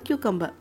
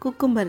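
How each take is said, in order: First: It begins with a 'kyoo' sound. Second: It begins with a plain 'koo' sound. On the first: The speaker calls it right. "கியூக்கம்பர்னு மாற்றிக்கோங்க" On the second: The speaker calls it wrong. "குக்கும்பர் இல்லை"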